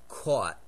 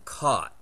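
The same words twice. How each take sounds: First: The word is said in a northeastern accent. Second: The word is said in a Californian accent. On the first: "my mother's caught, that distinctive northeastern phoneme" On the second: "I caught the ball"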